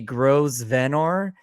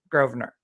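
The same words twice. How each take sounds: First: The name is said the way it is spelled. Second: The name is not said the way it is spelled. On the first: The speaker calls it wrong. "it looks like it's gonna be Grosvenor" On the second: The speaker calls it right. "she just pronounced it for us"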